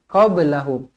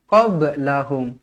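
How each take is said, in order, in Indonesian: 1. Bunyi b dilepas dengan sedikit memantul. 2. Bunyi b dilepas dengan sedikit memantul.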